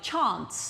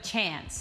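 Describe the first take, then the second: First: It is said in an imitated, fancier-sounding accent. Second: It is said in the speaker's own everyday accent. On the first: This is how the other person says it. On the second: This is how the name is usually said locally.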